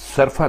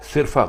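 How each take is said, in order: First: The first syllable has an 'a' vowel. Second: The first syllable has an 'i' vowel. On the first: The speaker calls it right. "सरफा दुरुस्त है" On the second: The speaker calls it wrong. "सिरफा गलत है"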